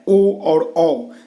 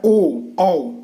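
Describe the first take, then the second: First: ओ और औ stretched very slow, each vowel held; drawn-out vowel demo. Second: ओ, औ said crisply as sample sounds; sounded vowel demo. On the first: Teacher stretching ओ और औ for students. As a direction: draw out ओ and औ slowly for the class. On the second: Teacher sounding ओ, औ as examples. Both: Shown as a demonstration. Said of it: "जैसे इसका उच्चारण करेंगे आप".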